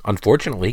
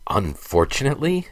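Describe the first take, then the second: First: Said in the usual way. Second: High, rising disbelief on Unfortunately?; incredulous retort. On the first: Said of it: "Jarek chimed in". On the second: A narrator's reading. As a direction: throw Unfortunately? back, pitched high and questioning. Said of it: "retorted Alex".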